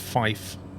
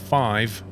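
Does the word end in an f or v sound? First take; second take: f; v. First: The word ends with an f sound. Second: The word ends with a v sound. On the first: "it's fife" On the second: "five with a V"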